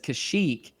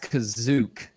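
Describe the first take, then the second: First: The middle sound is 'sh', ending like 'shook'. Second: The middle sound is 'z', ending like 'zook'. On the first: The speaker calls it right. "says Kashyyyk as Kazook" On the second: The speaker calls it wrong. "says Kashyyyk as Kazook"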